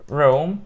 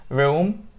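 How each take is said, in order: No difference in how they are said.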